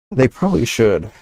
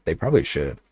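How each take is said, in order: First: Higher and louder, emphatic repeat. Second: Said in the usual way. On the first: Real, not acted. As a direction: punch it up with conviction. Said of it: "repeats it, louder and higher". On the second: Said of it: "repeats it, second time louder".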